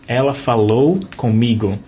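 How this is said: Every vowel is pronounced fully and openly. "So we pronounce like every syllable"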